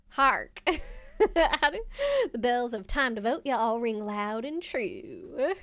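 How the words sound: It is read in a Southern American accent.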